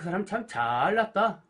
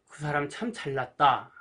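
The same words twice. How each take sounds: First: It is said in a mocking, sarcastic tone. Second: It is said in a sincere, admiring tone. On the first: The person is actually being put down. "비아냥거리는 오히려 못났다는 말이 되죠" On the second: The person is being praised. "칭찬하는 말이 되죠"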